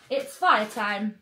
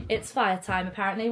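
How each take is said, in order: First: "it's fire time" drawn out slowly, each word weighted; slow emphatic announcement. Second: Said in the usual way. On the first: Real, not acted. Announcing to the family that it is fire time, slow and emphatic. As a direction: savour "fire time" slowly like a big reveal.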